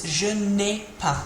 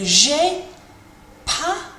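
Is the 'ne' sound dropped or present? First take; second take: present; dropped. First: The ne sound is included before the verb. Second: The ne sound is left out entirely. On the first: This is the full written form. "that's what you would see if you were writing this" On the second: This is the everyday spoken form. "we can just drop it out and we can say"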